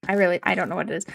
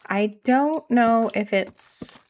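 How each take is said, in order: First: Rushed "I don't know" run together in a Canadian accent; fast Canadian accent. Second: Drawn-out nasal "don't" with a Canadian lilt; slow Canadian accent. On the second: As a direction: stretch "I don't know" slowly in a Canadian accent. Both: Shown as a demonstration. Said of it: "I talk funny".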